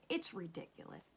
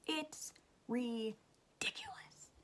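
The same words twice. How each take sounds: First: Said in the usual way. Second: "ridiculous" stretched out syllable by syllable; slow, drawn-out "ridiculous" with a break after "ri"; exasperated emphasis. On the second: Real, not acted. Fed-up mom ranting about testing, drawing out "ridiculous".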